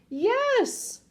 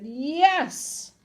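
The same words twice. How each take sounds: First: Very high-pitched yes; stubborn high holler; yelled insistence. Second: Drawn-out yes, raised in pitch; insist, stretching the word; stubborn, louder yes, short of a yell; firm insistence. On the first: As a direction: yell back, pitch shooting up. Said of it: "The man yelled". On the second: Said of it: "The man said". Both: A narrator's reading.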